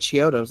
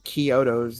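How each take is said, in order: First: The name begins with a 'ch' sound. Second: The name begins with a 'k' sound. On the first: The speaker calls it wrong. "it's not the Chiotos" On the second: The speaker calls it right. "it's the Kyotos. They pronounce it that way"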